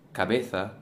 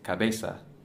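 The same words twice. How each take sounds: First: The z sounds like English th. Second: The z sounds like an s. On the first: This is how mainland Spain says it. "instead of cabeza" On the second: This is how Latin America and the Canaries say it. "those same letters sound like an S"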